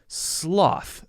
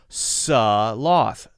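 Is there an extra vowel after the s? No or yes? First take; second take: no; yes. First: The s runs straight into the l sound. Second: A short extra vowel follows the s sound. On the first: The speaker calls it right. "You have to immediately jump to it" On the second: The speaker calls it wrong. "It's not sloth. That's a common mistake, to make that an s, S U H sort of sound"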